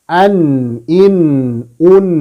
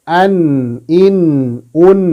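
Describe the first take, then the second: The two takes are said the same way.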